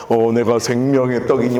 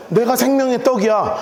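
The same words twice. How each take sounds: First: Much lower, mocking echo of his claim; sarcastic mimicry. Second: Said in the usual way. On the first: Crowd mimicking Jesus to his face, sarcastic. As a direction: parrot his words scornfully in a low voice. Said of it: "그러니까 빈정되는 거를". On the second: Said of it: "뭐라 그래요?".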